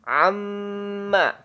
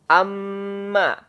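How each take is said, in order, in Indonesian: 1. Bunyi m berdengung lewat hidung. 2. Bunyi m berdengung lewat hidung.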